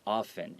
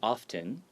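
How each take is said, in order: First: The T sound is left silent. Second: The T sound is clearly pronounced. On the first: "you can also say it without the T" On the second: "some people say often with the T"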